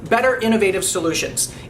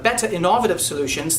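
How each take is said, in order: First: It is spoken in a North American accent. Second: It is spoken in a British-sounding accent. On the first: "you would be able to tell right away that I'm speaking uh, North American accented English" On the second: "just simply from changing my accent"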